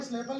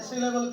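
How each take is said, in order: First: सिलेबल with the first vowel squashed, like "slay-bal"; mispronounced syllable. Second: सिलेबल with a clear short i after the s; correct syllable pronunciation. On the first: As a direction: run the s into the l in सिलेबल, "SLE-bal". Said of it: "सिलेबल नहीं कहना". (सिलेबल को गलत, 'स्लेबल' जैसा) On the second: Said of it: "सिलेबल कहना है आपने". (सिलेबल, 'सि' साफ़ छोटी इ के साथ) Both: Shown as a demonstration.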